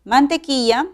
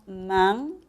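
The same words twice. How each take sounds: First: Said in the usual way. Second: "mantequilla" in separated pieces with long pauses; syllable by syllable. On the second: Shown as a demonstration. Teacher syllabifying the word, each piece set apart by pauses. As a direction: say "mantequilla" as man, te, quilla, each alone.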